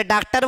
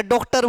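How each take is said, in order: First: First डॉक्टर said as "डाक्टर", wide आ; wrong आ vowel. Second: Second डॉक्टर said as "डोक्टर", closed ओ; wrong ओ vowel. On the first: Teacher shows students a wrong choice, आ in डॉक्टर. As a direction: say डॉक्टर with a plain आ, as the mistake. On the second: Teacher shows students a wrong choice, ओ in डॉक्टर. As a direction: say डॉक्टर with a rounded ओ, as the mistake. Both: Shown as a demonstration. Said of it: "दोनों ही गलत है".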